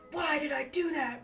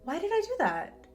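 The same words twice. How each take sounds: First: It sounds frustrated and self-critical. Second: It sounds curious and interested.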